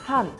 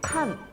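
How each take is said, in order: First: The word begins with an H sound. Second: The word begins with a K sound. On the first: "H 발음을" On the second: "K로 부르는 데가 있어요"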